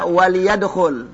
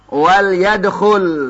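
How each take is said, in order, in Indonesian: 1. Huruf l diikuti vokal pendek. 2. Huruf l tidak diikuti vokal. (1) "Enggak dibaca" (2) "Disukunkan. Bagaimana bacaannya? Wal yadkhul. Itu bacaannya"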